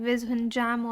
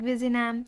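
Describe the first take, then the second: First: The name is said the way non-Keralites say it. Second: The name is said the way Keralites say it. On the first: This is how people from outside the region say it. "people other than who are not belonging to Kerala, they pronounce it like Vizhinjam" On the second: This is how local speakers say it. "in their language it's like Vizinam"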